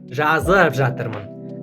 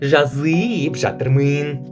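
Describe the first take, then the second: First: The vowel sounds close to a. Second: The vowel sounds like Russian y. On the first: The speaker calls it right. "У нас просто "а"" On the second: The speaker calls it wrong. "Не жазып жатырмын"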